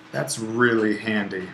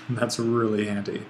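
First: Said in the usual way. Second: Repeats it through a small chuckle; amused, half laughing; light laugh. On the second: Real, not acted.

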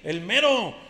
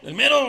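First: Said in the usual way. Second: "el mero" punched loud with a rising end; stress on MERO. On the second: Acted. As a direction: hit "mero" hard, boasting. ("el MERO" gritado con subida, presumiendo) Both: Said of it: "Pues luego yo soy aquí el".

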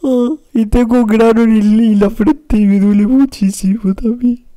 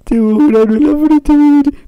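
First: Mock-crying wail. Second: Loud bawling far above usual pitch; high mock-crying wail. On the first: Streamer moaning about a sore forehead pimple, loud mock wail. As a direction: bawl it out in exaggerated self-pity. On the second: Streamer repeating the pimple complaint, high loud wail. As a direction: push the whine up into a wail.

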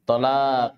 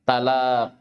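First: "Talaq" with a heavy, backed T, first vowel near o; emphatic Arabic ta. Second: "Talaq" with a plain dental T and open a; light Arabic ta. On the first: Teacher contrasts letters for students, "Talaq" with heavy emphatic ط. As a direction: open "Talaq" on emphatic ط, like "Tolaq". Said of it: "Huna harf ta fi awalil kalima". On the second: Teacher contrasts letters for students, "Talaq" with light ت. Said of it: "istami'u qabla an taqra'u". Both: Shown as a demonstration.

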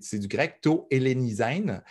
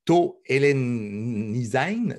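First: Said in the usual way. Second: Slow, carefully spoken Greek to Hellenisein; to Hellenisein drawn out in Greek; Greek term. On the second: Shown as a demonstration. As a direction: sound out to Hellenisein slowly, syllable by syllable.

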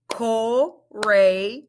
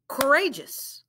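First: "Courageous" said slowly in parts; syllable by syllable; split into syllables. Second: "Courageous" said smoothly as one word; blended "Courageous". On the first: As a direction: segment "Courageous". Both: Shown as a demonstration. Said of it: "Let's blend it".

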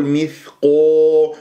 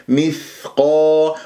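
First: مثقو with the long vowel turned to o; rounded qaf, wrong. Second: مثقا slowly, heavy qaf with open long aa; unrounded qaf. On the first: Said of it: "ولا أقول مثقو". (مثقو بتكوير الشفاه) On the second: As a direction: keep lips unrounded on مثقا. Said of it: "لا تكور الشفاه". (مثقا بتفخيم دون تكوير) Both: Shown as a demonstration.

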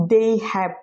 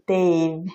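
First: They have as two whole words; uncontracted form. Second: They've as one drawn-out syllable; contracted form. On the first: Teacher giving the full form, they have said separately. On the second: Teacher showing the contraction, they've in a single syllable. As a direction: blend they have into they've, slowly. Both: Shown as a demonstration. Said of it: "কে উচ্চারণ করা হচ্ছে".

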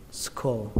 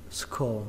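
The two takes are said the same way.

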